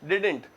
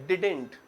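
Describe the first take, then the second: No difference in how they are said.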